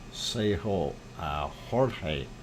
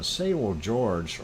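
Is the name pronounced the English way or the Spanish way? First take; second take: Spanish; English. First: The name is pronounced the Spanish way. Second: The name is pronounced the English way.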